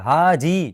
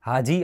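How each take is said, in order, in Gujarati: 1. આ શબ્દ ચીડાયેલા સૂરમાં લાંબો ખેંચીને બોલાયો છે. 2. આ શબ્દ સાદી અને ટૂંકી રીતે બોલાયો છે. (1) "ચીડાઈને કહેશો" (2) "આવું બોલતા હતા"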